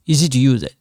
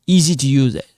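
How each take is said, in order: Both takes have the same delivery.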